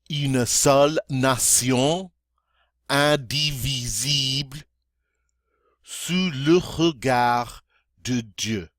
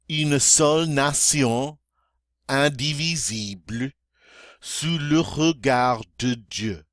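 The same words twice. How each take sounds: First: It is spoken very slowly. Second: It is spoken at a moderate pace. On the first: "this time very slowly" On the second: "a little faster now"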